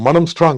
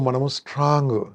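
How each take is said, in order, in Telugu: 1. ఇది బలమైన, గట్టి స్వరంతో అంటారు. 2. ఇది బలహీనమైన, తక్కువ శక్తి గల స్వరంతో అంటారు. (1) "స్ట్రాంగ్ ఇలా మాట్లాడాలి" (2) "వీక్ మాట్లాడుతున్నాను"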